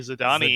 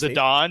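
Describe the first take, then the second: First: The final e is pronounced as ee. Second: The final e is silent. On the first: The speaker calls it wrong. "you don't say Zidane" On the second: The speaker calls it right.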